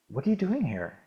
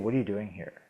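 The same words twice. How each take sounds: First: It sounds curious and friendly. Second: It sounds suspicious and unwelcoming.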